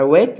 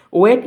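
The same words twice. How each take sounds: First: ওয়েট said with a long ei glide, like English "wait"; ওয়েট stretched into a diphthong; ওয়েট meaning wait, long ei vowel. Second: ওয়েট said short, like English "wet"; ওয়েট with a short clipped e sound; ওয়েট meaning wet, short vowel; wet as in soaked. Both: Shown as a demonstration. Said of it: "just উচ্চারণগুলো একটু শু-, আমাকে শুনে নাও".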